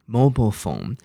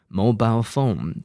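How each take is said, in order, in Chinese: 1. 美式口音，末音节弱化。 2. 英式口音，最后一个音节与'mile'押韵。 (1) "所以美式英文mobile phone" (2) "那英式英文mobile phone"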